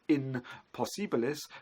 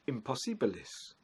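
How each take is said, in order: First: It is said as two separate words. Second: It is said as one merged word. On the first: This is the older form of the word. "what was once in possibilis" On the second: This is the later form of the word. "has become assimilated into one word"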